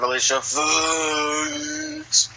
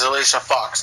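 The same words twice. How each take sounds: First: The name is said in a put-on voice. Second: The name is said in a plain voice. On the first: "King Ross does a way better impression of that than I do" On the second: "Her name is Alicia Fox"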